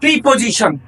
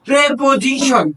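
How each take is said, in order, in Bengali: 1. প্রথম স্বরধ্বনিটি 'ee' এর মতো উচ্চারিত হয়। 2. প্রথম স্বরধ্বনিটি 'eh' এর মতো উচ্চারিত হয়। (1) "এটাকে আমরা ছোটবেলা থেকে ভুল শিখে আসি" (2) "এটা শুদ্ধ উচ্চারণ হলো"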